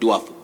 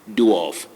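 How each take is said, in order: First: The vowel is not a long O sound. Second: The vowel is a long O sound. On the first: The speaker calls it wrong. "not dwarf" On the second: The speaker calls it right. "A and R combine to form the long sound O"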